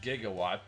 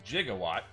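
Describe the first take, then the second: First: The word gets its standard dictionary pronunciation. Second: The word gets the pronunciation heard in the film. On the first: This is how the measurement unit is normally said. "the proper way to pronounce the measurement unit is gigawatt" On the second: This is how it is said in the movie. "in the movie, Doc Brown says gigawatt"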